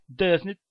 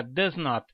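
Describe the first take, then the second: First: "doesn't" run together as one word; contracted form. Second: "does not" as two separate words; full form. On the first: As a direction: shorten it to "doesn't", no full "not". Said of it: "usaremos as contrações verbais". (forma contraída "doesn't", numa palavra só) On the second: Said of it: "Em vez de você falar". (forma completa "does not", sem contração) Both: Shown as a demonstration.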